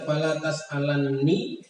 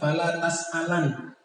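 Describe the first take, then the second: First: The n sound is doubled and held. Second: The n sound is single and light. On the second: "wa takfif"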